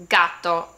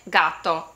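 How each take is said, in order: Both takes have the same delivery.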